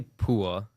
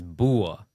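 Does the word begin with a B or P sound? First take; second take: P; B. First: The word begins with a P sound. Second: The word begins with a B sound. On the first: This is the form used in the speaker's own community. "we say pua" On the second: This is the main form used in India. "in India, uh, the main one is bua"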